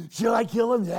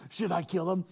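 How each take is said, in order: First: "Should I kill him?" repeated much higher and louder, eager to strike; eager shout. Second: Said in the usual way. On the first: Retold or imitated. King eagerly pressing Elisha for the kill, shouting.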